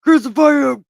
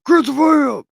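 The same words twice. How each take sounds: First: Loud mob chant, pitched up; hammed-up mob yell; crowd crying out. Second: Loud and higher, chanting back; hammed-up repeated mob yell; crowd crying out again. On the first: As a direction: shout it like the angry crowd. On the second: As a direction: keep the mob yell going. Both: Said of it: "they still cried out".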